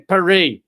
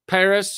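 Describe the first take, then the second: First: Paris is said with a French pronunciation. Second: Paris is said with an English pronunciation.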